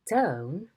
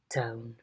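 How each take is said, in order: First: The pitch falls and then rises. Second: The pitch falls from mid to low. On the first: "a fall rise" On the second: "a low fall"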